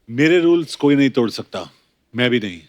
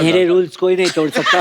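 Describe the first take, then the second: First: It is said in his normal voice. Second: It is said in a high, squeaky voice.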